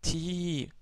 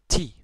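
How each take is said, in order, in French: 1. La voyelle est longue. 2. La voyelle est brève. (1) "Donc ti prolongé" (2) "Avec la kasra"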